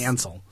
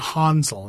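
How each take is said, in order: First: The name is said with English pronunciation. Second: The name is said with German pronunciation.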